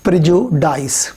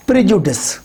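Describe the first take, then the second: First: प्रेजुडाइस ending in long dice, slowly; wrong prejudice. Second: प्रेजुडिस ending in short dis; correct prejudice. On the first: Teacher showing the wrong प्रेजुडाइस. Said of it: "ना कि". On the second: Teacher modelling the right प्रेजुडिस. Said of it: "तो ये प्रेजुडिस है". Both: Shown as a demonstration.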